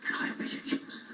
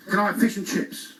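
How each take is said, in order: First: Breathy library whisper of the same order. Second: Called out. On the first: Acted. The comedian whispering his order to the librarian. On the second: Retold or imitated. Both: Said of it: "This is a library".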